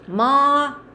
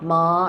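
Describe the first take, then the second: First: It carries the tone that means mother. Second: It carries the tone that means horse. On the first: It names a parent. "And then mama is ma" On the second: It names the animal. "Ma is a horse"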